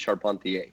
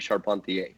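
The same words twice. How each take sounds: First: The name is said the French Canadian way. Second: The name is said the French Canadian way.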